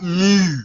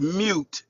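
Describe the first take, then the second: First: It ends without any t sound. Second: It ends with a clear t sound. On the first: The speaker calls it wrong. "not mew" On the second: The speaker calls it right. "the word is mute"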